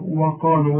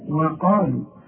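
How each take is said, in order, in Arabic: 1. صوت الواو في البداية ثقيل وغليظ. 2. صوت الواو في البداية خفيف ورقيق. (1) "وده خطأ" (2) "الواو دائما في القرآن مرققة"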